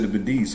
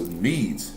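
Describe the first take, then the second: First: The word does not rhyme with 'seeds'. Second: The word rhymes with 'seeds'. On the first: The speaker calls it wrong. "I've always said the Medes" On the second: The speaker calls it right. "the Medes are pronounced like seeds"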